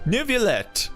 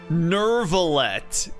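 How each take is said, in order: First: The name is said as Nivelet. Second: The name is said as Nervalet. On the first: The speaker calls it right. "It's it's Nivelet" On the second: The speaker calls it wrong. "Why does everyone keep saying his name is Nervalet?"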